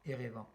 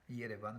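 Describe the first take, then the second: First: The name begins with a plain vowel sound. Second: The name begins with a 'y' glide sound. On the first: This is the French form of the name. The speaker calls it wrong. "qui n'est absolument pas fidèle à la prononciation arménienne" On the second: This is how Armenians say the name. The speaker calls it right. "la prononciation arménienne de Yerevan"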